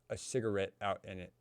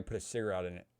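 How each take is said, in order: First: Said in the usual way. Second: Fast, "put a cigarette in it" smashed into one blur; words run together. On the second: Real, not acted. Telling friend how whiskey tasted, "cigarette in it" run together fast. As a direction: slur "cigarette in it" together quickly. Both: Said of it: "run my sentence together like that".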